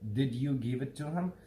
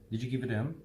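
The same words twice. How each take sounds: First: Each word is said clearly and separately. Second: The words are fast, reduced and run together. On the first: "How we say it is like that" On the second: "But how do Americans say it?"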